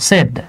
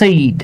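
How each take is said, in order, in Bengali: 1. স্বরধ্বনিটি একটি ছোট, সরল 'e' ধ্বনি। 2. স্বরধ্বনিটি একটি গড়িয়ে যাওয়া 'ay' ধ্বনি। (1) "এটা সয়কার ড, সেড" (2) "অনেকে উচ্চারণ করে সেইড"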